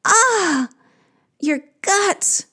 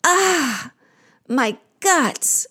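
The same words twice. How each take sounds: First: Very high, wailing sigh; echoed sigh. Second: Sighing. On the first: Creatures echoing the queen's pain, sighing high. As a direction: sigh back, pitched right up. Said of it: "They sigh". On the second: Queen of the underworld in pain, sighing. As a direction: sigh that starts high and falls. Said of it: "Ereshkigal sighs". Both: Acted.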